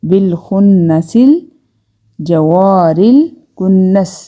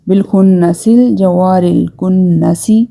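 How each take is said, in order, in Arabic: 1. الكلمة الأخيرة تنتهي بصامت، بلا حركة. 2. الكلمة الأخيرة تنتهي بكسرة قصيرة مضافة.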